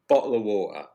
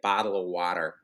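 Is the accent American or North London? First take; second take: North London; American. First: It is said in a North London accent. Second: It is said in an American accent.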